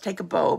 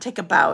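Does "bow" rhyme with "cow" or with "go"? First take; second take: go; cow. First: The word bow rhymes with go. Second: The word bow rhymes with cow. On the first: It refers to a tied ribbon bow. The speaker calls it right. "because this bundle is intended to be able to make your own bows" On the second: It refers to bending at the waist. The speaker calls it wrong. "It's not Take a Bow"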